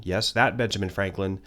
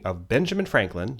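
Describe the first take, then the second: First: "that" leaned on as in that famous one; stress on that. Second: Said in the usual way. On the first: Shown as a demonstration. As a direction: press the word "that" a little.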